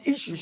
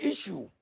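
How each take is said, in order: First: "issues" with a clear, firm final s; plural s stressed. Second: "issue" said without the final s; dropped plural. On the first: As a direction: hit the s at the end of "issues". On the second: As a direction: imitate the slip, "issue" with no s. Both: Shown as a demonstration. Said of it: "emphasis on issues".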